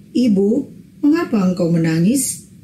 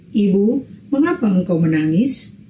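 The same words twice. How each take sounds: Both takes have the same delivery.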